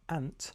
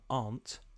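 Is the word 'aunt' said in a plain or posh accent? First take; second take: plain; posh. First: It is said in a plain, everyday accent. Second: It is said in a posh, upper-class accent.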